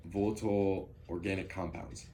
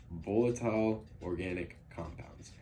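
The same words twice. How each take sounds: First: "volatile" fumbled as "olatl", slurred into "organic compounds"; stumbled pronunciation. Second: "Volatile" said fully as "vol-a-tile", each syllable clear; careful repeat. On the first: Real, not acted. Student presenting to class, tripping over a hard word. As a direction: trip over "volatile" as "olatl" on a first try. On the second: Shown as a demonstration. Student presenting to class, carefully redoing the hard word. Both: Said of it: "If it's hard to say".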